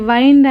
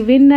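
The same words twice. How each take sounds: First: వైండ్ pronounced to rhyme with "find"; the verb's gliding vowel in వైండ్; long-i వైండ్. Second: విండ్ pronounced to rhyme with "pinned"; the noun's short vowel in విండ్. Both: Shown as a demonstration. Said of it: "pronunciation డిఫరెంట్గా ఉంది".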